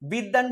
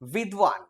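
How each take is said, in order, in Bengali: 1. d-এর পরে কোনো w ধ্বনি নেই। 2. d-এর পরে একটি w ধ্বনি আছে। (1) "বিদ্বান বলি" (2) "উচ্চারণ হওয়া উচিত বিদ্বান"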